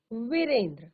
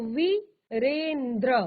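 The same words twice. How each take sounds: First: Said in the usual way. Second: Drawn-out word. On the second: Shown as a demonstration. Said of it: "तो वीरेंद्र".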